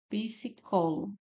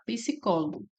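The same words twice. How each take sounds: First: "Psicólogo" slow, divided into syllables. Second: Said in the usual way. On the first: Shown as a demonstration. Teacher showing how the word separates, "Psicólogo" syllable by syllable. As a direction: break "Psicólogo" slowly into its syllables. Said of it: "é separado dessa forma". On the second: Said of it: "Psicólogo é separado dessa forma".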